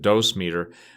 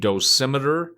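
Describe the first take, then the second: First: It is said as two parts, dose meter. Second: It is said as one word, dosimeter.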